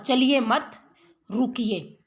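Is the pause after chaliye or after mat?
after mat. There is a pause after mat.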